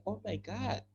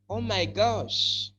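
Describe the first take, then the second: First: Softly spoken "Oh my God", ending on a d; UK-style exclamation. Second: Drawn-out "Oh my gosh" with the sh ending; American-style exclamation. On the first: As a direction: say "God" quietly, higher, in place of gosh. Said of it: "U K, they will say". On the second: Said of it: "That's American". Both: Shown as a demonstration.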